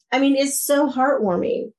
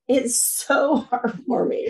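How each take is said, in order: First: Said in the usual way. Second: Slow, softer "heartwarming" broken by a laugh; laughing softly. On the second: Real, not acted. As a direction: let a real laugh catch the words, slowing down.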